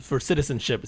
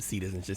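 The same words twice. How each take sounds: First: Said in the usual way. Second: "Citizenship" with a Spanish-style "si" sound at the start; Mexican accent. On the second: Shown as a demonstration. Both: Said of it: "See, I said it like a Mexican".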